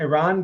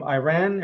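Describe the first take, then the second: First: Iran said as "ih-RAHN"; corrected pronunciation. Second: Iran said as "eye-RAN"; anglicized pronunciation. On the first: Host correcting himself to a viewer, Iran pronounced "ih-RAHN". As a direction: say Iran with short first vowel, "rahn" ending. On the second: Host greeting a viewer, Iran pronounced "eye-RAN". Corrects own pronunciation of country. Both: Real, not acted.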